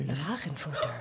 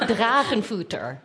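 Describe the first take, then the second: First: The word is said more softly. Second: The word is said at normal loudness.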